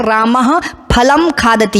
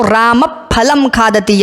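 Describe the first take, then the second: First: Said in the usual way. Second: फलम with the visarga before फ breathed through both lips; correct upadhmaniya. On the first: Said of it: "ये सामान्य संस्कृत में बोलते हैं". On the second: Shown as a demonstration. Teacher demonstrating the lip-sound before फलम to students, careful. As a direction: give the फ in फलम a bilabial puff. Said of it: "एक सही तरीके से उच्चारण करेंगे तो".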